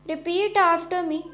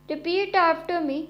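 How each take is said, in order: Both takes have the same delivery.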